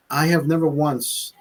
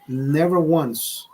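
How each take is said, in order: First: Said in the usual way. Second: Never once slowed right down, each word weighted; slow emphasis. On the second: Shown as a demonstration. Insisting to viewers he never uses a teleprompter, slow and weighted. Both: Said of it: "repeats never once for emphasis".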